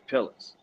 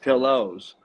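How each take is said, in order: First: It has a Philadelphia accent pronunciation. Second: It has a standard, non-Philadelphia pronunciation. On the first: This is how locals say it. "It's pillows. That's what we say" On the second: This is how outsiders say it. "Not pillows"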